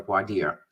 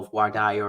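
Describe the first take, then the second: First: "voir dire" with dire said as DEER; voir dire, DEER ending. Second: "voir dire" with dire said as DIE-er; voir dire, DIE-er ending. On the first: Lawyer offering host the alternative, "voir dire" pronounced vwar DEER. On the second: Lawyer explaining jury questioning to host, "voir dire" pronounced vwar DIE-er. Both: Shown as a demonstration. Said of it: "Depending on how you wanna pronounce it".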